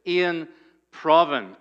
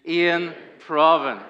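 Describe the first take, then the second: First: "Ian Provan" with both vowels short and clipped; "Ian Provan" said as a clear model, short quick vowels; careful name demo. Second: "Ian Provan" drawn out slowly, stress landing on "Provan"; slow call-and-response "Ian Provan", stress on "Provan"; slow leading demo. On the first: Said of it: "Both of them very short vowels". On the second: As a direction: lead the room through "Ian Provan" slowly, leaning on "Provan". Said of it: "Say it together". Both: Shown as a demonstration.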